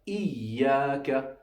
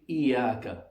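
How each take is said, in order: First: The ya sound is held and doubled. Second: The ya sound is short and single. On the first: The speaker calls it right. "Tashdid means that there are two letters essentially that are being read" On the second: The speaker calls it wrong. "we're not going to read"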